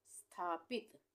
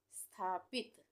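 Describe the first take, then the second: No difference in how they are said.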